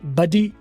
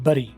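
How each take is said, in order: First: The middle consonant is a clear d sound. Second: The middle consonant is a quick r-like tap. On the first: "British में" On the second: "American में"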